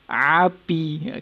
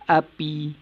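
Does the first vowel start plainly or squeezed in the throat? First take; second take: squeezed; plain. First: The vowel starts squeezed in the middle of the throat. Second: The vowel starts plainly with an ordinary onset. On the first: "dia tekan sikit dekat tengah halqum tu" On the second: "Sebutan dia macam biasa"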